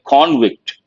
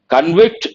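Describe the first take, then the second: First: The stress is on the first syllable. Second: The stress is on the second syllable. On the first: It is the noun meaning a guilty person. "same word when it is a noun, you have to say" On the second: It is the verb meaning to find guilty. "as a verb"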